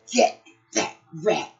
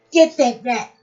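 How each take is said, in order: First: Said in the usual way. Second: Loud command. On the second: Acted. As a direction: get that rat shouted out louder. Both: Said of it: "said Pat".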